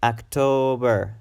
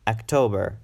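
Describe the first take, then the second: First: October with a long, stressed TO; longer second syllable. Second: Said in the usual way. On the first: Shown as a demonstration. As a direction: stretch the middle syllable of "October". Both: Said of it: "It should be pronounced a bit longer".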